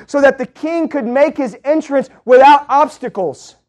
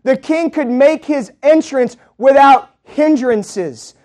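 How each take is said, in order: First: Said in the usual way. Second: "without hindrances" stretched out slowly, word by word; slow down and lean on "without hindrances"; slow emphatic repeat. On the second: Acted.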